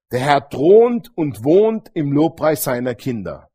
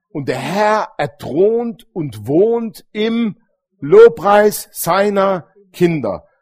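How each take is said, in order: First: Said in the usual way. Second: Very slow, each word drawn out and loud on "Lobpreis"; slow solemn proclamation. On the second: Shown as a demonstration. Preacher proclaiming to his congregation, very slow and solemn. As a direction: stretch "er thront und wohnt im Lobpreis seiner Kinder" out word by word, leaning hard on "Lobpreis".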